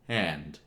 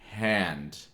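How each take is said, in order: First: The word starts smoothly with no catch or h. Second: The word starts with an audible h sound. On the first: "you don't have the glottal, but you don't hear the H either" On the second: "where it's pretty much hand"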